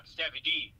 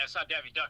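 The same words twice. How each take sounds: First: "D" stressed, the corrected name "Daffy D.". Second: "not" stressed, "Daffy Duck" as the wrong name. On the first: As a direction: land on the final "D" in "It's Daffy D.". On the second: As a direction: push the word "not" in "It's not Daffy Duck". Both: Shown as a demonstration.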